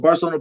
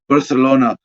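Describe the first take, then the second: First: The 'c' is said like an English 's'. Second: The 'c' is said like an English 'th'. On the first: The speaker calls it wrong. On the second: The speaker calls it right.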